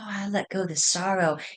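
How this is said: It is said in a soft, timid way. The speaker calls it wrong. "None of this being nice"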